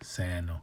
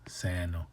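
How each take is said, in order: First: The vowel is said long, clearly lengthened. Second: The same.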